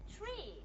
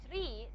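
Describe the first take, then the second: First: "Tree" with an aspirated t; native aspirated t. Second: "tree" with no aspiration on the t; non-native unaspirated t. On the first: Teacher showing how native speakers say it, aspirated "Tree". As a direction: say "Tree" with a puff of air on the t, as natives do. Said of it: "aspirated t". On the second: Teacher showing an odd pronunciation to class, unaspirated "tree". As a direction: say "tree" without the puff of air after t. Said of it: "this is not how native speakers". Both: Shown as a demonstration.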